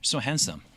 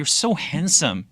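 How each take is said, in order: First: It sounds routine and merely polite. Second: It sounds sincere and truly meant.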